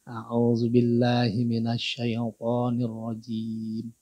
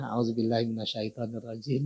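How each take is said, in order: First: It is recited slowly with each sound carefully articulated. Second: It is recited carelessly, without careful articulation. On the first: The speaker calls it right. "masuk mahrajnya ya" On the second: The speaker calls it wrong. "kan asal ya"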